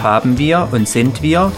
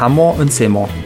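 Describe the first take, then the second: First: Each verb and pronoun is said in full. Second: Each verb and pronoun is shortened into one word. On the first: "Wir sagen zum Beispiel nicht haben wir und sind wir" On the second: "Wir sprechen alle Wörter sehr weich aus und verkürzen sie"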